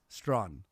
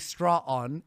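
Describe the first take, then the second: First: The name is said as one syllable. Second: The name is split into two syllables. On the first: The speaker calls it right. "It's Strawn" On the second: The speaker calls it wrong. "you keep saying her her name wrong though. You say straw on"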